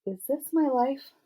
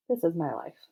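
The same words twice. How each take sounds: First: "Is this my life?" slow, high and questioning; wondering question. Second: "This is my life." at usual pitch, falling to a close; settled statement. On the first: Girl marvels at Steve's confession, asking "Is this my life?" in wonder. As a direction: lift "Is this my life?" high in disbelief. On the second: Girl answers her own question, "This is my life." stated with finality. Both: A narrator's reading.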